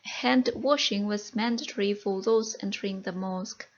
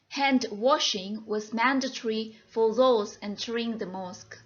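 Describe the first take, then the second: First: The sentence is read at a faster pace. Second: The sentence is read at a slower pace.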